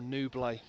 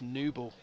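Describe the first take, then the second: First: The name ends with a 'lee' sound. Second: The name ends with a 'bull' sound. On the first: The speaker calls it wrong. "I've been saying" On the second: The speaker calls it right. "when it's Newble"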